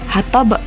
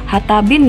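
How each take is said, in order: First: The word ends on a stopped, bouncing consonant. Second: The word ends with an added -in syllable. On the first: The speaker calls it right. "tapi dibaca hatab" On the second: The speaker calls it wrong. "Tidak dibaca hatabin ya"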